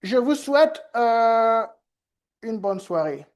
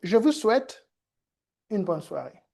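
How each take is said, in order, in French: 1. La pause est remplie par un son d'hésitation. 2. La pause est une courte pause silencieuse. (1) "une personne a dit" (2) "Tout simplement une pause"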